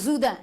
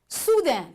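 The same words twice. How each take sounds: First: The word begins with a z sound. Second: The word begins with an s sound. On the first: The speaker calls it wrong. "Est-ce qu'on va dire soudain? Non" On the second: The speaker calls it right. "Il y a le son ce"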